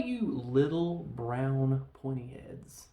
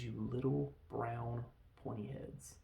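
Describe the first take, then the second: First: Slow, drawn-out redneck insult; mock redneck drawl, trailing down from a yell. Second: Deliberate quote. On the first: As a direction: drag the words out like a hollering redneck. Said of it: "and the redneck". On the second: Retold or imitated. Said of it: "He says".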